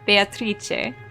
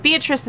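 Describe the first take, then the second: First: The name is said with an Italian pronunciation. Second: The name is said with an English pronunciation. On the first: The speaker calls it right. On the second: The speaker calls it wrong.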